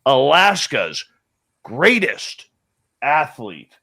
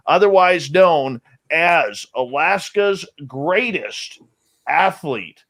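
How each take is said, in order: First: "Alaska's" slow, pause, "greatest", pause, "athlete" falling; each word set apart by a long pause, like an announcer; dramatic pauses. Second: "Alaska's greatest athlete" drawn out slowly, a beat before "athlete"; slow, grand announcer build to "athlete". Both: Shown as a demonstration. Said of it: "notice how we have to pause on that".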